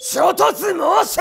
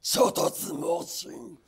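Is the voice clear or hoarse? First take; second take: clear; hoarse. First: It is said in a clear, unstrained voice. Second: It is said in a hoarse, crushed-throat voice.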